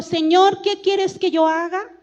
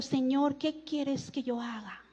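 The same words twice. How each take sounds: First: Loud, raised scripture reading, little real fear; trembling question, read out. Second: Hushed, low, timid question; trembling, fearful. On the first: Man answering the Lord, read out in a strong voice. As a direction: read the plea out strongly, pitch lifting at the end. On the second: Fearful man asking the Lord what to do, hushed. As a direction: let the plea sink to a soft, humbled close. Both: A narrator's reading. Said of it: "Él temblando y temeroso dijo".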